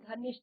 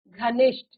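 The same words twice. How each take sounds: First: The word is said in a casual everyday pronunciation. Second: The word is said in a careful standard pronunciation. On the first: The speaker calls it wrong. "अशुद्ध शब्द है। हम क्या कहते हैं?" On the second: The speaker calls it right. "जो शुद्ध शब्द है वो है घनिष्ठ"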